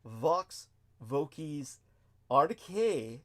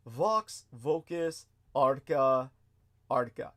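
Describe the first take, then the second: First: "Arcae" said slowly as AR-kay, ending on an "ay" sound; correct Latin ending. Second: "Arca" said slowly as AR-ka, ending in a plain short "a"; wrong Latin ending. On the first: Correcting the Latin title for listeners, careful slow "Arcae" ending in "ay". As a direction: say "Vox Vocis Arcae" slowly, landing the ending of "Arcae" on "ay". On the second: First reading the title with "Arca" ending in -a, before correcting it. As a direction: read "Vox Vocis Arca" slowly, stretching out "Arca" with a short -a ending.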